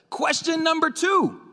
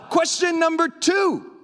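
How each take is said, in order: First: Said in the usual way. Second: Shouted high and slow from the pulpit; yelling. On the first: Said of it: "I have a microphone". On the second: Real, not acted. Preacher announcing his next point, real shout. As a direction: belt it out to the room. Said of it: "I'm yelling".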